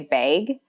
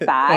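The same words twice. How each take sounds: First: Bag is said with a Minnesotan vowel. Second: Bag is said with a standard American vowel. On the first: This is how the speaker grew up saying it. "I used to say bag" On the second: This is how people elsewhere say it. "instead of bag"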